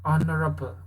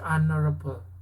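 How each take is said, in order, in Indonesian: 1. H di awal tidak dibaca. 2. H di awal tidak dibaca.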